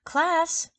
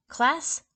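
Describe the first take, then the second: First: High, loud call to order; sharp teacher's call for attention; teacher calling the class. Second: A lighter, rising call to the class; stern teacher's rising call. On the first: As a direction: summon the class like a strict teacher. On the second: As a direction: call the class, a little less sharp. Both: Acted. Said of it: "said Miss Landers, the first grade teacher".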